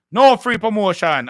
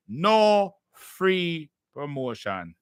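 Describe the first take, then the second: First: Said in the usual way. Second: "No free promotion" drawn out word by word; slow, emphatic declaration. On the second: Real, not acted. Host laying down the payment rule, "No free promotion" slow and emphatic. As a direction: stretch each word of "No free promotion" very slowly.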